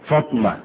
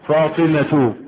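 First: No vowel is heard between t and m. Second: A vowel is heard between t and m. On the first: The speaker calls it wrong. "بعض الناس ينطقونها خطا" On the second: The speaker calls it right. "تقول عائشة، فاطمة"

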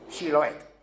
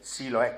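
First: The word begins with a sh sound. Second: The word begins with a plain s sound. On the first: The speaker belongs to the Gileadite people. The speaker calls it right. "como la chía andaluza cuando decimos ducha" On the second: The speaker is an enemy from Ephraim. The speaker calls it wrong. "con una S normal"

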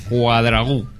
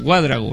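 First: The stress is on the last syllable. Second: The stress is on the first syllable. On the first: The speaker calls it right. "con acento en la U" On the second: The speaker calls it wrong. "siempre pienso que es esdrújula y digo Cuadragu"

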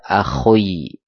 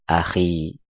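First: The kh is followed by an oi vowel. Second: The kh is followed by a plain i vowel. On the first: The speaker calls it wrong. "Atau dibaca akhoi, beda lagi" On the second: The speaker calls it right. "maka dibaca akhi"

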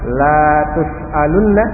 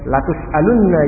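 First: The first syllable has a long vowel. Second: The first syllable has a short vowel. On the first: You will not be asked. "Tapi kalau dibaca lamnya panjang" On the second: You will surely be asked. "Misalnya dibaca lam pendek"

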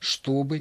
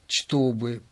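First: The word begins with a sh sound. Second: The word begins with a ch sound. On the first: This is the Moscow pronunciation. "на Москве говорили" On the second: This is the Petersburg pronunciation, following the spelling. "написана-то буква «ч», значит, и читать нужно"

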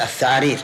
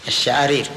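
First: The word begins with a 'th' sound. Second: The word begins with a 'sh' sound. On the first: A speaker missing teeth produced it this way. The speaker calls it wrong. "كأنه نطق بها هكذا الثعارير" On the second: This is the form the speaker intended to say. The speaker calls it right. "يبي يقول الشعارير"

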